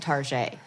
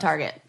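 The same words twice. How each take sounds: First: The name is said with a fancy French-style pronunciation. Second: The name is said with a plain English pronunciation. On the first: The speaker calls it wrong. "we're like putting a fancy" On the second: The speaker calls it right. "It's fucking Target"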